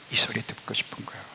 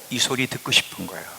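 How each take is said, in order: First: Soft, fast intimate whisper. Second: Said in the usual way. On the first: Shown as a demonstration. Preacher whispering God's longing to the church. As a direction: breathe it as a secret longing. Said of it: "repeated line whispered". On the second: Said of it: "repeated in whisper".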